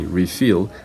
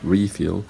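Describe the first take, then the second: First: The stress is on the second syllable. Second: The stress is on the first syllable. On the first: It is used as a verb. "the stress is on the second syllable" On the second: It is used as a noun. "the stress is on the first syllable"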